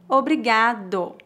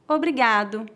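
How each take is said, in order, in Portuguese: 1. É dito muito devagar. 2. É dito em velocidade natural. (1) "uma vez bem devagar" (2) "2 vezes mais naturalmente"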